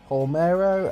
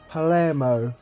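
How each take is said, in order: First: The l and m sounds come together. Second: A vowel and r come between l and m. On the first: The speaker calls it wrong. "I thought the club's name was Palmero" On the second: The speaker calls it right. "it's actually pronounced Palermo"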